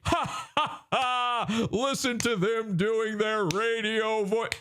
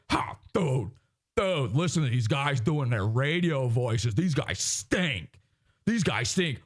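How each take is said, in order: First: High, fake-laughing radio jock; mock cackle, then high jeering voice; Opie and Anthony. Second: Low, mocking radio-guy voice; Opie and Anthony. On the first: Host mimics radio hosts jeering others, high mock voice. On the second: Host mimics radio hosts mocking others, low jock voice. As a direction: drop lower and mock two radio jocks. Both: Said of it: "Opie and Anthony are doing radio voices".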